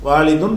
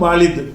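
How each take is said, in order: First: The word ends with an added 'un' sound. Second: The word ends on a plain 'u' vowel.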